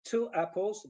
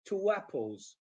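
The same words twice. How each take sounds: First: Said in the usual way. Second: "two apples" linked as "two-wapples"; "two apples" run together with a w glide; linking w. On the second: Shown as a demonstration. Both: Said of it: "linking word".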